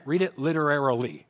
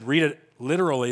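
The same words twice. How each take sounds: First: "literarily" said with the extra syllable, lit-er-AIR-i-ly; "literarily" with a clear lit-er-air-i-ly. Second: "literally" said plainly as lit-er-al-ly; "literally" said flat, the usual way. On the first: Shown as a demonstration. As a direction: stretch "literarily" so it is heard as different from "literally". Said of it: "They meant". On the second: Retold or imitated. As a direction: stress "literally" as the ordinary word lit-er-al-ly. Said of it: "and they said".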